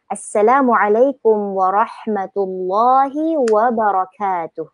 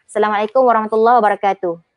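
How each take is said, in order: First: It is said with an Arabic-style accent. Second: It is said with a flat Malay-style accent. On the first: The speaker calls it right. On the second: The speaker calls it wrong. "jangan ya kalau kita cakap"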